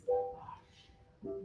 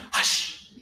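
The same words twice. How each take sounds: First: "Hush" very soft and low, tender; loving hush. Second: "Hush" as a sharp unvoiced scolding shush; harsh hush. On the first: Director showing the loving hush to the choir. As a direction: hush like someone who loves you. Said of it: "someone you love ... goes". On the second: Director showing the demeaning hush. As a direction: clip it off like a scold. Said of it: "it's not sweet to go". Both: Shown as a demonstration.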